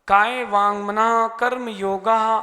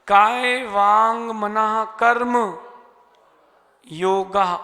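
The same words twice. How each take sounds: First: Karma and yoga run together without a pause. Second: There is a pause between karma and yoga. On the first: Karma and yoga form one compound word. The speaker calls it wrong. "यही पढ़ते ना? गलत है।" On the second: Karma is a separate word in the nominative case. The speaker calls it right. "कर्म में रुकना पड़ेगा"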